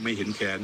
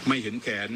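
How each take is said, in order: First: ไม่เห็นแขน said slowly, each word weighed; slow, deliberate recap of ไม่เห็นแขน; slow summing-up emphasis. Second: Said in the usual way. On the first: Shown as a demonstration. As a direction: spell out ไม่เห็นแขน deliberately as the takeaway. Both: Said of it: "เอาสรุปง่ายๆ".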